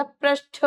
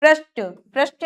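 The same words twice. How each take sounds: First: पृष्ठ ending in puffed ṭha; "prishṭha", aspirated finish. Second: पृष्ठ with a plain ṭ; quick पृष्ठ, no puff; unaspirated error. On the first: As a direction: breathe out on the end of पृष्ठ. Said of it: "ठ से ठठेरा". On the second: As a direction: say पृष्ठ wrongly as "prishṭa". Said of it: "ट और ठ की अशुद्धियां". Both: Shown as a demonstration.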